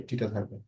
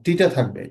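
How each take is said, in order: First: টিটা থাকবে repeated much softer; quiet repeat to himself; quiet echo. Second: Said in the usual way. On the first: Shown as a demonstration.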